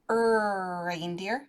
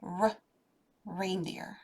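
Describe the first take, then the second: First: The word starts with a drawn-out 'er' vowel sound. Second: The word starts with a short, clipped 'r' sound. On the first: The speaker calls it wrong. "It's not an er reindeer" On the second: The speaker calls it right. "it's a r"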